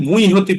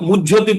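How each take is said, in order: First: The word is pronounced the Sanskrit reading way. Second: The word is pronounced the Bengali reading way. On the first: "আর যদি সংস্কৃতে পড়েন তাহলে মুইহতি পড়বেন" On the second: "যদি বাংলায় পড়েন তাহলে মুই মুহ্যতি পড়বেন"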